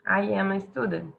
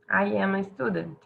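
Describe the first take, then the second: First: I am is said as two full words. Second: The same.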